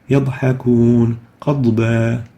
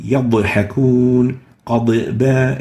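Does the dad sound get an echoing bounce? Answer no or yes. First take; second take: no; yes. First: The dad sound is held without any bounce. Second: The dad sound gets an echoing bounce. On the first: The speaker calls it right. "We should say" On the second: The speaker calls it wrong. "saying yadhakun qad ba is wrong"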